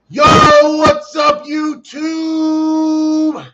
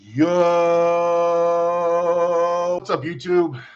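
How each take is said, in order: First: It is said with high energy. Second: It is said with low energy.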